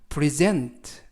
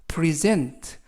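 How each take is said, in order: Both takes have the same delivery.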